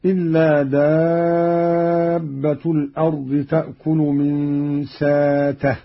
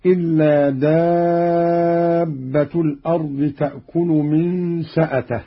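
First: ساته with long aa, no glottal stop; hamza turned long vowel. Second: سأته with a glottal stop after the seen; hamza kept. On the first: Teacher shows Qalun's reading, ساته with long aa for hamza. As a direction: recite ساته as saatah, drawn smoothly. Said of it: "بإبدال الهمزة حرف مد هكذا". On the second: Teacher quotes the verse before the variant, سأته with its hamza. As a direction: recite سأته as sa'atah, long madd on دابة. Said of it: "قرأ قالون بإبدال الهمزة". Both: Shown as a demonstration.

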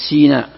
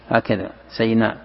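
First: سيناء said with a kasra on the S, "sīnāʾ"; Sinai with kasra. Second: سيناء with a fatha on the S, "saynāʾ"; Sinai with fatha. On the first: Teacher demonstrating the author's reading, سيناء with a kasra. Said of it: "المؤلف يقرأ بكسر السين". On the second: Teacher giving the Hafs reading, سيناء with a fatha. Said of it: "وبقية القراء يقرؤون بالفتح سيناء". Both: Shown as a demonstration.

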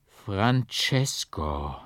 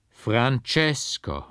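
First: Slow, drawn-out mournful name; hollow lament. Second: Slow, drawn-out and louder, falling at the end; louder lament. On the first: Mother calls to the hidden portrait: slow lament. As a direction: stretch the name out like a dull lament. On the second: Mother calls the portrait again: louder slow lament. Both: A narrator's reading. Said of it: "mit dumpfer, tief klagender Stimme".

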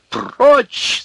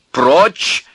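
First: Very high, full-voiced yell; piercing angry command; louder shout. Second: High, loud command; sharp raised cry; shout. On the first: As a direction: scream it to force him away. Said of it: "закричал тогда Князев громче прежнего". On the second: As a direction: shout it as an order to back off. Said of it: "крикнул Князев". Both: A narrator's reading.

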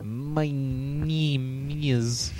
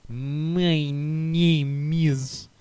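First: Slow, drawn-out mock Russian accent. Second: Very slow, stretched mock Russian accent. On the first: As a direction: stretch it out like a Russian guy. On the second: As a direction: drag each word in a Russian accent. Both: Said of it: "he started talking in that Russian accent".

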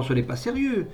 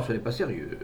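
First: Higher-pitched, scornful dismissal; outraged disbelief. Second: Calmer remonstrance. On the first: Mother dismissing her son's confession, outraged disbelief. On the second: Mother reasoning with Armand after outburst, calmer. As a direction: reason with him, anger held back. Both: A narrator's reading.

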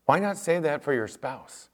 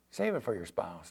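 First: Said in the usual way. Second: "Save it for your spouse" dropped much softer and lower; quiet. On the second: Shown as a demonstration. Pastor pressing the point home to the youth, softly. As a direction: pull "Save it for your spouse" back to a soft earnest hush.

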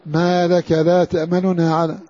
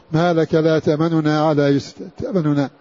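First: تأمننا read slowly, the first nun's vowel quick and partial; slow recitation with the u of the first nun in تأمننا snatched; قراءة بطيئة مع الاختلاس. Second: تأمننا with the first nun's u said very fast and short; اختلاس حركة النون الأولى; quick snatched vowel. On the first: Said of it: "فحرك هذه النون بحركة سريعة مختلسة". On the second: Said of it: "اختلس حركة النون الأولى هذه". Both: Shown as a demonstration.

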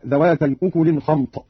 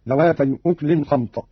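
First: Said in the usual way. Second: أكل as "uklin", no vowel after the k; vowelless kaf. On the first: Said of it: "قرأ قالون بإسكان الكاف". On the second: Shown as a demonstration. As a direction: slowly, close the kaf in أكل. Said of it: "بإسكان الكاف تخفيفا هكذا". (أكل بإسكان الكاف)

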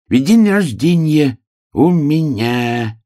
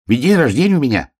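First: Высокий протяжный заячий голос; повтори медленно, растягивая каждое слово. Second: Высокий беглый заячий голосок; пробормочи тоненько и бегло; бормочущий заяц. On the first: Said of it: "медленно повторил заяц". (заяц тянет слова врастяжку) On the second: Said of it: "бормотал заяц". (заяц тараторит под нос) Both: A narrator's reading.

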